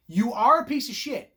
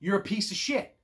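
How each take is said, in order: First: Emphatic "You ARE a piece of shit"; stress on ARE. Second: Said in the usual way. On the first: Shown as a demonstration. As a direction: hit "are" hard.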